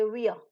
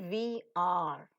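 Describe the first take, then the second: First: The two words are merged into one syllable. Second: Both words are said fully and separately. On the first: The speaker calls it right. "we say we are" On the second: The speaker calls it wrong. "You don't say we are"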